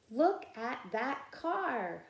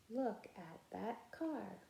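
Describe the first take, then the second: First: Higher, slow and clear: look at that car; model reading. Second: Much softer repeat of Look at that car; echo reading. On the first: Teacher modeling the sentence for the class to echo. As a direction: sing it out for the class to copy. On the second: Teacher voicing the class's echo of the sentence. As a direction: say it back quietly as the echo. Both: Shown as a demonstration. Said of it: "you can be my echo".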